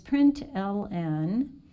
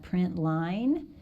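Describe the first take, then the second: First: The ending is said as two letters. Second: The ending is said as the word line. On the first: "but it's print L N" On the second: "Some people pronounce that print line"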